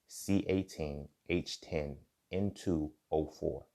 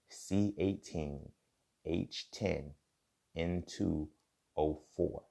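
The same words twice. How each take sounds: First: It is said at normal speed. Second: It is said more slowly.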